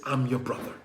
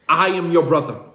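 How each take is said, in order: First: Soft, broken near-whisper; tearful hushed reveal. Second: Said in the usual way. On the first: Acted. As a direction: hush it out through tears. Yusuf reveals himself, weeping.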